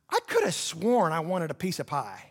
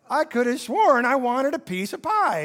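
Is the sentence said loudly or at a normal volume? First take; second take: normal; loud. First: The sentence is said at a normal volume. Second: The sentence is said at a loud volume.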